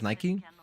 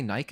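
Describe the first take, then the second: First: Said the American way, ending in an ee sound. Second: Said the British way, rhyming with bike. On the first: "That's the way I've always heard it here in America" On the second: "Do you guys say Nike? ... how you guys actually say it"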